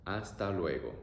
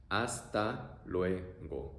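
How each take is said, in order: First: Said in the usual way. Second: Very slow Hasta luego. drawn out; teacher modelling slowly; slow demo. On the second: Shown as a demonstration.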